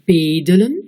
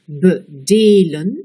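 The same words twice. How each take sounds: First: The stress is on the first syllable. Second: The stress is on the second syllable. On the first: "on met l'accent sur la première syllabe" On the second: "on met l'accent sur la deuxième syllabe"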